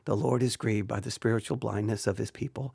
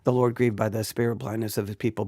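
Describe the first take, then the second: First: It is read too softly and quietly. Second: It is read fast and mumbled together. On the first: "and you may say, speak up" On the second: "I could just mumble through it. You'd be like, slow down, enunciate"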